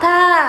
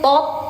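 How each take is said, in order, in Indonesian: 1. Bunyinya ringan, terbuka, dan ada nafasnya. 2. Bunyinya berat dan gelap. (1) "tipis, dibuka. Ada nafasnya" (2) "Jadi tot"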